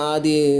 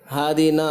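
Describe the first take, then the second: First: The name begins without an h sound. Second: The name begins with an h sound. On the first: The speaker calls it wrong. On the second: The speaker calls it right.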